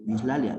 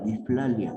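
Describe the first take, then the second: First: It is said with an s sound. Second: It is said with an f sound.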